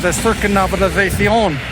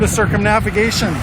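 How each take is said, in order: First: It is said with a Spanish pronunciation. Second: It sounds like the English word circumnavigation. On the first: The speaker calls it right. "it is actually the circumnavigation" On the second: The speaker calls it wrong. "closer and more comfortable to the English word circumnavigation"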